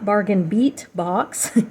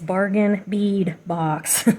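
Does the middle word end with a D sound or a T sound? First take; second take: T sound; D sound. First: The middle word ends with a T sound. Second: The middle word ends with a D sound. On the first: The speaker calls it wrong. "It's not Bargain Beat Box" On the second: The speaker calls it right. "it's Bargain Bead Box. It's beads"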